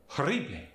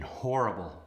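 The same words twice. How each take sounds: First: Horrible with a hard rolled double R, higher; Spanish accent. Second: Said in the usual way. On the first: Shown as a demonstration. Teacher demonstrating double R trill, Spanish accent. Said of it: "A more aggressive rolled R". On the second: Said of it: "and horrible becomes".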